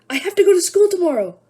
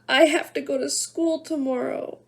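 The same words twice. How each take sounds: First: It is said in a panicked voice. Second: It is said in a crying voice.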